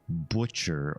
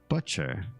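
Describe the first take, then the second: First: The first vowel rhymes with put. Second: The first vowel rhymes with crutch. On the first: The speaker calls it wrong. "is more of a neologism and wrong" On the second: The speaker calls it right. "to rhyme with crutch, the same U sound"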